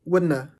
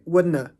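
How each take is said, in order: No difference in how they are said.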